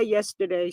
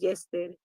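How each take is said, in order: First: Said in the usual way. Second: "Yesterday" said as "yes-teh-dee", no r and ending in "dee"; aunt's pronunciation. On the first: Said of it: "She didn't say yesterday". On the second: Retold or imitated. Streamer quotes how her aunt said yesterday, soft "yes-teh-dee". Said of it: "She says".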